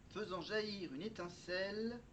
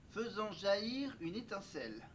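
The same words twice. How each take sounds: No difference in how they are said.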